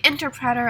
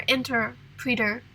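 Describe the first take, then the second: First: Interpreter with a short e, "in-ter-PRET-er"; interpreter, third syllable rhyming with "bet"; model pronunciation. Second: Interpreter with a long ee, "in-ter-PREE-ter"; interpreter, third syllable rhyming with "beat"; alternative pronunciation. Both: Shown as a demonstration. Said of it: "pronouncing different words".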